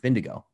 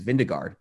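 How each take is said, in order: First: The name ends in a 'go' sound. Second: The name ends in a 'gard' sound. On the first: This is how the name is actually said. The speaker calls it right. "but you pronounce it Vindigo" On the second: This is how the name looks in writing. The speaker calls it wrong. "It reads Vindegaard"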